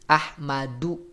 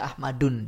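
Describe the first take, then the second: First: The word ends on a vowel without n. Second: The word ends with an added n sound. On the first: The speaker calls it right. "tanwin atau nun sukunnya itu dibuang, tidak diucapkan" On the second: The speaker calls it wrong. "tak bisa Ahmadun dia"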